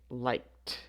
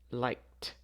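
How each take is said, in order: First: The ending is pronounced as a t sound. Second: The ending is pronounced as a t sound.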